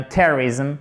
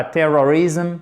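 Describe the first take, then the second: First: "terrorism" stressed on TER, middle swallowed to "TER-rizm"; first-syllable stress. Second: "terrorism" with a full O in "ror"; wrong pronunciation. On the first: Teacher correcting learners, "terrorism" stressed on first syllable. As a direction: hit TER in "terrorism" and reduce the O away. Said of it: "Faites bien l'accent tonique sur la première syllabe". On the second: Teacher showing learners the error, fully voiced middle of "terrorism". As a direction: sound every syllable of "terrorism", middle vowel unreduced. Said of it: "et c'est pas terrorism".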